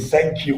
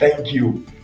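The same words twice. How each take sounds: First: It starts with an s sound instead of th. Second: It starts with a th sound, tongue between teeth. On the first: The speaker calls it wrong. "We have sank, S A N K" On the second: The speaker calls it right. "instead of saying thank you"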